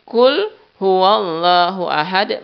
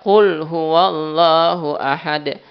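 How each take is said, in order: First: The first sound is a plain front k. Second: The first sound is a deep back q. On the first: It means eat: He is God, the One. The speaker calls it wrong. "bukan Qul tapi Qul" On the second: It means say: He is God, the One. The speaker calls it right. "Katakanlah kan ya"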